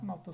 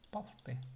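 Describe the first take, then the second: First: The word begins with an m sound. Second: The word begins with a p sound. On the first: This is the regional dialect form. "Малты это сагайский диалект" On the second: This is the standard literary form. "в литературе пишется палты"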